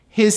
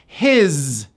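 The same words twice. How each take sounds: First: The word ends with an s linked onward. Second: The word ends with a voiced z sound. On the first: "it becomes a connected S" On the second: "it's pronounced as a Z"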